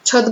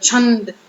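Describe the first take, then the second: First: The first syllable has no nasal sound. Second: The first syllable has a strong nasal sound. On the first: The speaker calls it wrong. "છદ બોલીએ નથી બોલતા" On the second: The speaker calls it right. "છ ની ઉપર ફૂલ ભાર દઈને બોલવું પડે"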